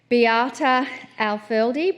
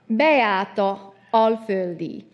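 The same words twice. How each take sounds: First: The name is said with English pronunciation. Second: The name is said with Hungarian pronunciation.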